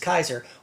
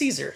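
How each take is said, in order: First: The name begins with a K sound. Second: The name begins with an S sound. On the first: This is the original, historically correct pronunciation. "The proper pronunciation of his name is Kaiser" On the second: This is the pronunciation everyone commonly uses. "everybody knows it's Caesar"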